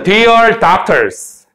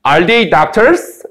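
First: Said in the usual way. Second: "doctors?" gently lifted at the end; slightly rising question. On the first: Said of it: "요 위에 거는". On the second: Shown as a demonstration. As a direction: read "are they doctors?" slowly, tipping "doctors" upward as a question. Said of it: "살짝 올려 읽어요". ("doctors?" 끝을 살짝 올려 읽는 의문문 억양)

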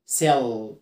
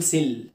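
First: سيل with a thick, drawn final l; low سيل closing on "ull"; dark L. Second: سيل with a thin, clear final l; quick سيل, tongue-tip l; light L. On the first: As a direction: darken and hold the l in سيل. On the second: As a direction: say سيل with no darkening of the l. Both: Shown as a demonstration. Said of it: "ما ينفعش اقول سيل".

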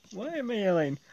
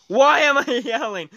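First: Much softer, sheepish aside; quiet aside. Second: High yelled question with a laugh; raised, laughing yell. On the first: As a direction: drop to a soft mumble after yelling. Calming down after yelling. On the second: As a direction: yell it, amused at yourself. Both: Real, not acted.

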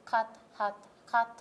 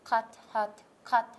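No difference in how they are said.

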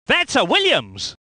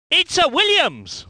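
First: Said in the usual way. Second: Lifted, exclaimed car name; excited identification. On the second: Acted. Commentator spotting a Williams, excited call.

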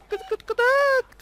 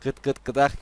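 First: Slow, very high clucking hen; chicken clucking. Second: Said in the usual way. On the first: Pretend. Gamer clucks for his flying chicken, high and slow.

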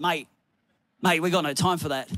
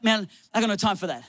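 First: Low, lightly imitated Aussie tradesman; blokey Aussie accent, pitched low. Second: Said in the usual way. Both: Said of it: "In his Aussie accent".

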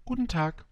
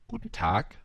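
First: Higher, courteous "Guten Tag"; polite greeting. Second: Said in the usual way. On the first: A narrator's reading. Little prince politely answering the fox's greeting, polite. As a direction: return the greeting politely, pitched up. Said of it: "antwortete höflich der kleine Prinz". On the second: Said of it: "Guten Tag, antwortete höflich der kleine Prinz".

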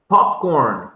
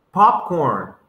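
The two takes are said the same way.

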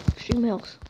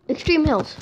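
First: Said in the usual way. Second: Loud, sudden remembering; excited recall; eureka. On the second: Real, not acted. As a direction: blurt it out as it comes back. Remembers the biome name.

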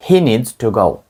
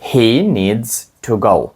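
First: Said in the usual way. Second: Slow, every word separated; slow drill read; slow model sentence. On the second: Shown as a demonstration. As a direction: lay it out slowly for learners. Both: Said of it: "тепер ще раз скажіть речення".

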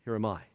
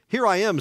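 First: "Here am I" said softly and low; a soft, surrendered "Here am I"; humble offering. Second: "Here I am" said louder, pushing forward on "here"; "Here I am" as a bid for notice; attention-seeking "Here I am". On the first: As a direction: offer yourself quietly. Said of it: "An offering". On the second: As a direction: announce yourself so everyone looks. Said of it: "There's a difference". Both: Shown as a demonstration.

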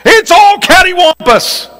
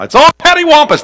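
First: High, hammed-up Southern exclamation; Southern drawl. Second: A high, quick folksy Southern remark; Southern drawl. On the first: Preacher demonstrates a favorite Southern phrase in a high twang. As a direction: toss it off like a folksy Southerner. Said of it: "Catty corner, though ... cattywampus". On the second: Preacher uses his favorite word in a folksy Southern voice. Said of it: "that's my word for everything". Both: Shown as a demonstration.

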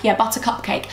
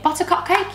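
First: Said in the usual way. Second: Quizzical rising repeat of Butter Cupcake; "Butter Cupcake?" with a questioning rise on Cupcake; questioning echo. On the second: Real, not acted. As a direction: ask back "Cupcake?" as if unsure of the name. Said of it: "it's called Butter Cupcake".

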